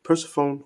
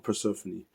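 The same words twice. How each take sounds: First: Persephone ending like "phone"; mispronunciation. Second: Persephone ending in "fuh-nee"; alternative pronunciation. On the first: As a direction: say Persephone as PER-suh-fone, three syllables. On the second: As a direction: say Persephone as per-SEF-uh-nee, four syllables. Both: Shown as a demonstration. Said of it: "I believe that's how you".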